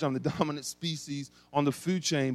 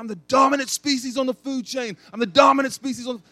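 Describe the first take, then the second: First: Amused recall. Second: High, loud triumphant yell; fighting a bear in a dream, yelling high and loud. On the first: Real, not acted. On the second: Retold or imitated. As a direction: roar it out like you're winning the fight. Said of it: "I remember yelling in my dream".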